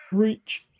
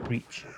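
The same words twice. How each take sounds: First: "Reach." loud and much higher, rising at the end. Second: Soft, low-key reach, almost under the breath; a soft murmured "Reach."; quiet reach. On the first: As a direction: call out "Reach." high with a lifted ending. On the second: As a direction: say "Reach." softly and flat. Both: Shown as a demonstration. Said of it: "repeated word, second take contrasts".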